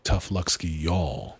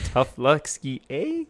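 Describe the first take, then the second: First: A light American Southern accent on fake Russian; mock Southern Russian. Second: Put-on slow Canadian accent, "eh" flipped high; mock Canadian Russian. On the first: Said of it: "what they say in Southern Russian". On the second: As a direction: joke Canadian twist, ending on a high "eh". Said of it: "Canadian Russian".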